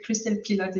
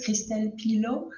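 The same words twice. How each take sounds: First: "Christelle Pilot" said the English way, Pilot ending in a clear t; plain anglicized "Christelle Pilot", crisp final t; English pronunciation. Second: "Christelle Pilot" said the French way, Pilot as pee-LOH with a silent t; French pronunciation. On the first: Guest offers the easier English version of her name. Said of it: "Christelle Pilot is very good too". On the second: Guest teaches the host her name, French pronunciation. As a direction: give the name its French sound, stress on the last syllable. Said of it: "if you want the French way". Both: Shown as a demonstration.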